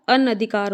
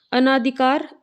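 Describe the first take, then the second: First: अनधिकार with short "na"; correct vowel demo. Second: अनाधिकार with long "naa"; wrong vowel demo. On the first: Teacher corrects it, अनधिकार with short second vowel. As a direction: say अनधिकार as "an-a-dhikaar". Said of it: "होता है". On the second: Teacher shows the mistake, अनाधिकार with long second vowel. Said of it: "अना नहीं होता". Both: Shown as a demonstration.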